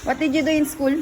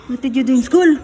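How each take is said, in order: First: Said in the usual way. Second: Raised voice, insistent repeat; louder repeated question. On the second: Real, not acted. Parent asking child about school, loud repeat. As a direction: ask it loudly to get an answer.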